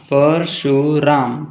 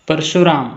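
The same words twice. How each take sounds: First: परशुराम in three separate beats, पर-शु-राम; split into syllables. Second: Said in the usual way. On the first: Shown as a demonstration. Teacher showing three syllables, परशुराम split as पर-शु-राम. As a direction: stretch परशुराम out part by part, पर, शु, राम. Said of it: "three syllables". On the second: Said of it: "म्हणजेच syllable पाडा".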